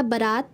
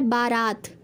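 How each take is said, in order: First: बारात with short first vowel, "ba-raat"; correct form. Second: बारात with long first aa, "baa-raat"; form as written. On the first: Teacher giving the correct word, बारात said ba-raat. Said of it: "इसका शुद्ध रूप हो जाएगा". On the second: Teacher reading out the misspelling, बारात with long baa. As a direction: lengthen the 'baa' in बारात. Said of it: "आगे इसमें लिखा है". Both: Shown as a demonstration.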